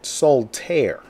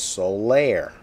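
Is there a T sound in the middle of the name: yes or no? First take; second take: yes; no. First: The name has a T sound in the middle. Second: The name has no T sound in the middle. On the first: The speaker calls it wrong. "would pronounce it Soltaire" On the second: The speaker calls it right. "When actually it's Solaire"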